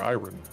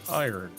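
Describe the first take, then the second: First: It is said with a British pronunciation. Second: It is said with an American pronunciation.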